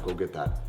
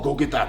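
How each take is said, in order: First: The tone is relaxed and easygoing. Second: The tone is harsh and demanding. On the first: It comes across as a friendly, casual request. The speaker calls it right. "very chilled out and relaxed" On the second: It comes across as mean and too much. The speaker calls it wrong. "super harsh with my tone"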